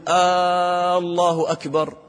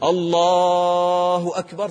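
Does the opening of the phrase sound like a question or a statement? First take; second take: question; statement. First: The opening vowel is lengthened, sounding like a question. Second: The opening vowel is short, sounding like a statement. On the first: It asks whether God is greatest. The speaker calls it wrong. "هذا خطأ. ... أنت تسأل هل الله أكبر؟" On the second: It declares that God is greatest. The speaker calls it right. "نحن في الأذان ما نسأل نقول الله أكبر، صح"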